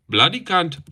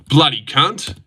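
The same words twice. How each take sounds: First: Indian accent attempt. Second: Said in the usual way. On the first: Shown as a demonstration. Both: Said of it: "Indian accent".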